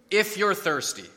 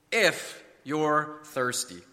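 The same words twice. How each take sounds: First: Said in the usual way. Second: "If you're thirsty" word by word, very slow; slow and deliberate. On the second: Shown as a demonstration. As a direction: draw out "If", pause, then "you're thirsty". Repeated slowly to expose the prerequisite.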